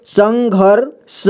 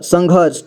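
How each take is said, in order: First: संघर्ष split slowly as san-ghar, sha; syllable-by-syllable reading. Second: Said in the usual way. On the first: Shown as a demonstration. Teacher showing learners where the r goes, संघर्ष slowly in pieces. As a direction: stretch संघर्ष, r closing the second syllable. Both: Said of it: "घ के बाद पढ़ेंगे".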